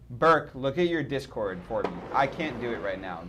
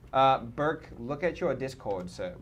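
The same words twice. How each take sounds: First: Said in the usual way. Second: A light British accent on Burke and sir; mock British accent. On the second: Shown as a demonstration. Streamer asking Burke to check Discord, in a mock British accent. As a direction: call Burke in a playful put-on British accent. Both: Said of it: "Why do I keep doing that?".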